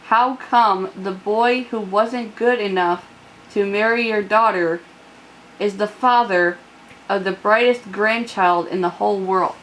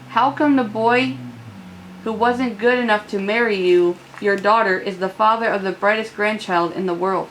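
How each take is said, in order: First: It is said slowly. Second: It is said at normal speed.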